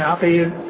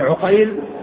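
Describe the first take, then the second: First: It starts with 'a' and ends in '-il'. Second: It starts with 'u' and ends in '-ayl'. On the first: It is the plain, non-diminutive form of the name. "العين مفتوحة والقاف مكسورة" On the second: It is the diminutive form of the name. "العين مضمومة والقاف مفتوحة"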